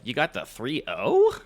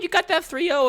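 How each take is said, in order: First: It is said in a surprised, incredulous tone. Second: It is said in a plain, congratulating tone. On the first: The speaker did not expect the result. "My tone would be like" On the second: The speaker expected the result. "I'm not surprised. I'm congratulating you"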